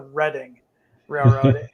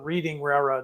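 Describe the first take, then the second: First: Reading is said the way East Coasters say it. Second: Reading is said the way Midwesterners say it. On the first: The speaker calls it right. "No, it's the Reading Railroad" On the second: The speaker calls it wrong. "my railroad friends would call this the Reading Railroad"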